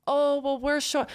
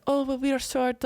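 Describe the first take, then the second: First: Said in the usual way. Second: Lightly attempted French accent. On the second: Imitating the girl at the concert, French accent. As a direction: quote her in a French accent, pitched up. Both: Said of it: "in her French accent".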